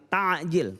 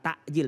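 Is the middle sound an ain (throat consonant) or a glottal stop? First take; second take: ain; glottal stop. First: The middle consonant is a voiced throat ain. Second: The middle consonant is a plain glottal stop. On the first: It means hastening the breaking of the fast. The speaker calls it right. "tapi takjil" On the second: It means delaying the breaking of the fast. The speaker calls it wrong. "Bukan takjil"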